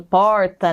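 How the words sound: The r is said in the Campinas regional way. "Aqui em Campinas a gente fala assim"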